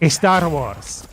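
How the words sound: It is said with Spanish pronunciation. "I will pronounce it in the Spanish way"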